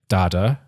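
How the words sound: The word is said with an American pronunciation. "apparently Americans say data"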